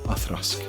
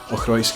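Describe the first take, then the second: First: It is said the Gaelic way, 'Athrusk'. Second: It is said as it is spelled, 'Ochroisk'. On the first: "the Gaelic pronunciation" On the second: "Ochroisk is absolutely fine"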